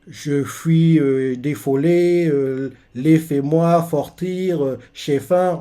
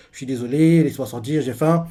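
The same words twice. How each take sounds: First: Slow, lisping mush: "Je fuis, défolé" with s turned to f; mock-mangled "laissez-moi sortir" said as "lefɛmwa fortir"; scarred mumble. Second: Said in the usual way. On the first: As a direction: garble it like a scarred mouth that can't form words, slowly. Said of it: "qu'il n'arrive pas à parler". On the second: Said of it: "il veut dire".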